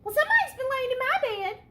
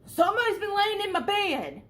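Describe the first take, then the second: First: It is said in a middle-sized bear's voice. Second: It is said in a big bear's voice.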